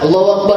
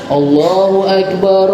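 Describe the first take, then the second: First: The phrase is said quickly without drawing out. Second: The phrase is said slowly with drawn-out vowels. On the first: It is the call that starts the prayer itself. "Idraj itu cepat. Nggih, dibacanya itu cepat" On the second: It is the call that summons people to prayer. "enggak seperti adzan yang dibaca"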